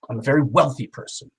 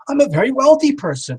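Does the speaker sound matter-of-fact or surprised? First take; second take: matter-of-fact; surprised. First: It is said in a flat, matter-of-fact way. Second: It is said with a surprised, amazed tone. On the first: It is simply a fact. "I change the tone" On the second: It comes as a surprise. "I kind of go in surprise"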